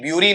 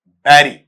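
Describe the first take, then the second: First: The first vowel sounds like 'byoo'. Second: The first vowel sounds like 'beh'. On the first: The speaker calls it wrong. "ब्यूरी नहीं" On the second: The speaker calls it right.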